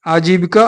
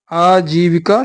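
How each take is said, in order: First: आजीविका with a short first a; wrong vowel. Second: आजीविका with a long opening aa; correct vowel. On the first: Teacher marking it wrong, आजीविका starting on short a. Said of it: "अशुद्ध है". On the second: Teacher marking it right, आजीविका starting on long aa. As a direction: draw out the first vowel of आजीविका. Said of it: "शुद्ध है". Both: Shown as a demonstration.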